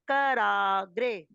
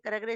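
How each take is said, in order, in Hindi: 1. दूसरे अक्षर में खुला, दीर्घ 'aa' स्वर है। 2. दूसरे अक्षर का स्वर लघु या शिथिल है। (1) "रा पे आ की मात्रा है करा। आगे बोल देंगे ग्रे।" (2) "कुछ बच्चे कराग्रे कराग्रे कराग्रे इस तरह बोल रहे हैं, वो नहीं बोलेंगे"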